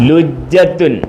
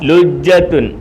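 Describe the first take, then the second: No difference in how they are said.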